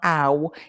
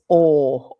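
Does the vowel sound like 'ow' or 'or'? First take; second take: ow; or. First: The vowel is a gliding 'ow' sound. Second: The vowel is a long 'or' sound. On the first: The speaker calls it wrong. "it's not ow" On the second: The speaker calls it right. "it's or"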